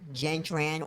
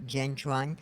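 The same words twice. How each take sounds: First: The last name has an American English pronunciation. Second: The last name has a Vietnamese pronunciation.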